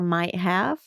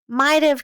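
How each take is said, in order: First: Both words are said fully and separately. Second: The words are run together with "have" reduced. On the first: "for might have" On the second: "can be very difficult to hear"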